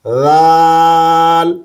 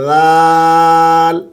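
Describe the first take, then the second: No difference in how they are said.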